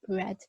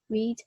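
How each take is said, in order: First: It is said with the past-tense pronunciation. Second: It is said with the present-tense pronunciation. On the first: The action happened in the past. "when it becomes the past tense" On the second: The action is happening now. "instead of being read"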